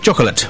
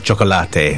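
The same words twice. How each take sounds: First: The word is pronounced with English sounds. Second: The word is pronounced with Spanish sounds.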